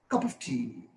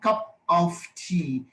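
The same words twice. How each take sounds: First: The words are linked smoothly into one unit. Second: The words are said separately, without linking. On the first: The speaker calls it right. "but in speech" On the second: The speaker calls it wrong. "in reading"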